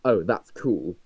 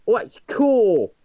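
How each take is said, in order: First: Said in the usual way. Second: High, slow rough London slang; chav accent. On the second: Retold or imitated. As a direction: drag out cool like a chav. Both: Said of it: "exposed your terrible chav accent".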